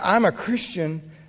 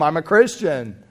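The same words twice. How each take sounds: First: It sounds humbly amazed and grateful. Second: It sounds proud and superior.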